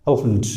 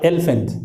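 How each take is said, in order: First: "अल्फेंट" as uhl-funt in two syllables; tongue curls up on a dark L in "अल्फेंट"; rounded correct elephant. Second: "एलिफेंट" with a clear opening eh; mistaken spelled-out elephant. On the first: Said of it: "आप इस तरह सही बोलना". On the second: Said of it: "lower palate में आपका टंग". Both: Shown as a demonstration.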